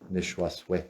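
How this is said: The word ends with an 'eh' vowel. This is how it is said at Leech Lake. "if you count to ten in Ojibwe and from Leech Lake"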